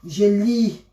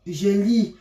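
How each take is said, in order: Both takes have the same delivery.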